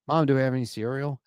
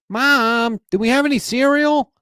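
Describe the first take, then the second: First: It is said in a normal, natural voice. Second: It is said in a whiny, nasal voice.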